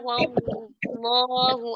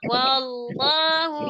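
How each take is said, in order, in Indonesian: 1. Nadanya tetap datar sepanjang kata. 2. Nadanya naik di dalam kata. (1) "jangan diangkat suaranya, jangan diangkat, ... Terus aja" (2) "Nah, diangkat"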